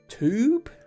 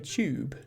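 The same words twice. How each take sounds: First: The word is said in an American accent. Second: The word is said in a British accent. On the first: "Americans pronounce that top word as tube" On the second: "Whereas I would say tube"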